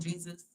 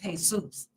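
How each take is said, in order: First: The name is said with English pronunciation. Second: The name is said with Spanish pronunciation. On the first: This is how most listeners say the name. "y'all call him Jesus" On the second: "it's a Spanish name"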